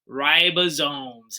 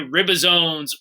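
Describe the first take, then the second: First: The first syllable does not sound like ribs. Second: The first syllable sounds like the word ribs. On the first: The speaker calls it right. "ribosomes is how you say it" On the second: The speaker calls it wrong. "Mmm, ribs, ribs are good. No"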